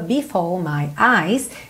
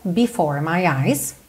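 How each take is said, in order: First: The R at the end of 'before' is silent. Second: The R at the end of 'before' is pronounced. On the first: "sem enrolar a língua" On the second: "se você quiser"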